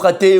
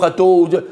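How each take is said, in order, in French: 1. Il se termine par la voyelle 'e'. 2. Il se termine par la voyelle 'o'. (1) "ou chaté" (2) "ou chato"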